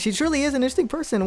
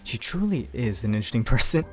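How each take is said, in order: First: A light, cheerful voice with a happy tone. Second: A slightly deeper voice with a subtly sinister tone. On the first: The character is simply pleased and innocent. "this little happy boy going" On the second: The character is hiding a darker side. "me going slightly deeper voice"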